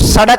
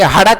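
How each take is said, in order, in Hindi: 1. यह शब्द स ध्वनि से शुरू होता है। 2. यह शब्द ह ध्वनि से शुरू होता है। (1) "वो सड़क नहीं बोलेंगे" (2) "हड़क बोलेंगे"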